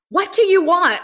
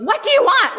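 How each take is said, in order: First: Sudden loud demand; an older lady yelling the question. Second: High, loud, sudden demand; sweet older lady yelling the question. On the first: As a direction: bark the question at him out of nowhere. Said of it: "didn't expect her to yell at me". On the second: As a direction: shout it at him like a startling prophetess. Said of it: "So she goes". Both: Retold or imitated.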